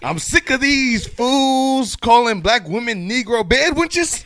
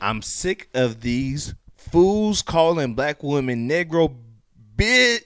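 First: It is read in a put-on, mocking voice. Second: It is read in a plain voice.

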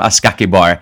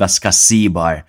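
First: The middle consonant is a k sound. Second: The middle consonant is an s sound. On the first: This is a nickname from struggling with the name. The speaker calls it wrong. "Jake and I just called him Ascakibar" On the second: This is the player's actual name. The speaker calls it right. "they had an attacking midfielder named Ascasibar"

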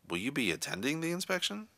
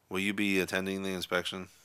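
First: The question is asked in a doubtful tone. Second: The question is asked in a bored tone. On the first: "an insecure or doubtful tone" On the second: "a bored, disinterested tone"

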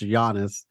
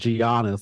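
First: The name is not said as it is spelled. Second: The name is said as it is spelled. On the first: The speaker calls it right. "but no, he's just pronounced" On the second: The speaker calls it wrong. "I was pronouncing it like it's spelled"

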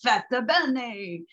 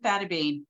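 First: The surname is said with an Italian pronunciation. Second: The surname is said with an American pronunciation. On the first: "truly the Italian way to say it" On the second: "that's the American version"

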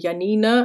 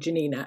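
First: The name is pronounced the German way. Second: The name is not pronounced the German way. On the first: This is the mistaken reading of the name. The speaker calls it wrong. "in my German brain clicks in, and I kept wanting to call her Janina" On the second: This is how the name's owner says it. The speaker calls it right. "but actually she should be called Janina"

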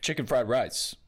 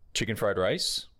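First: The voice falls flatly at the end. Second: The voice rises at the end, like a question.

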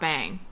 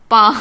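First: It is pronounced like the English word bang. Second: It is pronounced as Mandarin bāng, level tone. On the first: The speaker calls it wrong. "But it's not bang, people" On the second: The speaker calls it right. "Bang, to help"

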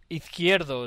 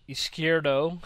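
First: The name is pronounced with Spanish sounds. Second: The name is pronounced with English sounds. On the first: "is how you pronounce it in Spanish" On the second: "Izquierdo in English"

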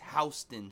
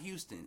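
First: It is said the New York street way. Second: It is said the Texas city way. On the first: This is how the New York street's name is said. The speaker calls it right. "if you're in New York, there's a Houston Street ... it's Houston Street" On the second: This is how the Texas city's name is said. The speaker calls it wrong. "if you're in Houston, it's Houston ... but it's not Houston"

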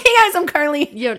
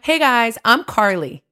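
First: The voice is at its normal everyday pitch. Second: The voice is lower and more nasal. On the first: "usually it's like" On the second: "I lowered it a little and then it went through my nose more than my chest voice"

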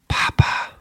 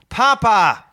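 First: It is whispered without voice. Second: It is said firmly with conviction.

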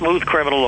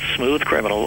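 First: The title is said quickly. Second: The title is said slowly. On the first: The speaker calls it wrong. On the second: The speaker calls it right.

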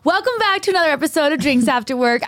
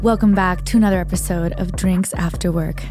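First: It is said in a normal speaking voice. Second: It is said in a soft, soothing voice.

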